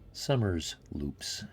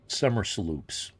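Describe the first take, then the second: First: The s stays with the first part, giving 'loops'. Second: The s joins the second part, giving 'sloops'. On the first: It names a loop, like a figure eight. "So I call it a Summers loop" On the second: It names a sloop made in the summer. "like a sloop that's made in the summer"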